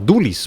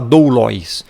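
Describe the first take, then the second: First: The last syllable has a plain 'i' vowel. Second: The last syllable has an 'oi' diphthong. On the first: The speaker calls it right. "você vai falar dulis" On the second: The speaker calls it wrong. "Você não vai falar doulóis"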